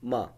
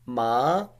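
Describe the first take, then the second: First: The pitch is short and light, without contour. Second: The pitch rises from middle to high. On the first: "the fifth one ma" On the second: "Second tone ma"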